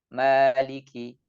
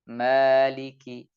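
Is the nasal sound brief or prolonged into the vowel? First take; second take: brief; brief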